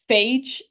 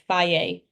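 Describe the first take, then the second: First: The name ends in a consonant sound. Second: The name ends in a vowel sound. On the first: The speaker calls it wrong. "That's not how you say it" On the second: The speaker calls it right. "Apparently, it's faye"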